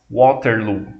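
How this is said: The name is pronounced the English way. This is how the winning side said it. "com a pronúncia em inglês"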